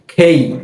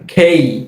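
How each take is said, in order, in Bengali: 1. k ধ্বনিতে বাতাসের জোরালো ফুৎকার আছে। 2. k ধ্বনিতে বাতাসের জোরালো ফুৎকার আছে।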